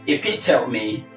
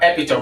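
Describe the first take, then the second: First: The word is said with four syllables. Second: The word is said with three syllables. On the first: The speaker calls it right. "there are four syllables in this word" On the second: The speaker calls it wrong. "It is not epitome"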